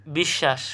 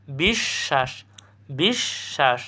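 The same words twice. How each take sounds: First: Said in the usual way. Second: বিশ্বাস split as "bish... shash"; correct pronunciation. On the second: Shown as a demonstration. Teacher answering what the correct sound is, split pronunciation. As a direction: hold the sh in বিশ্বাস and pause mid-word. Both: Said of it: "সঠিক উচ্চারণ কী হবে?".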